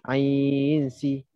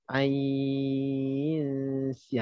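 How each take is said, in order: First: The second syllable follows directly with no nasal hum. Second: A nasal hum is held before the second syllable. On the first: The speaker calls it wrong. "jangan masuk terus. Jangan kita baca ain si. Ha, tak boleh" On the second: The speaker calls it right. "macam kita dengung macam biasalah"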